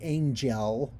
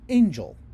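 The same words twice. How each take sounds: First: The second syllable has a full, clear vowel. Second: The second syllable has a reduced schwa vowel. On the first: The speaker calls it wrong. "so that you're not singing angel" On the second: The speaker calls it right. "but you're singing angel"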